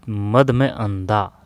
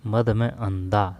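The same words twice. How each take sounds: First: मद में अंधा split slowly into parts; slow breakdown. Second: Said in the usual way. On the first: Shown as a demonstration. Teacher slowly breaks down मदांध for students, drawn out. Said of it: "splitting मदांध slowly". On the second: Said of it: "repeat of the breakdown".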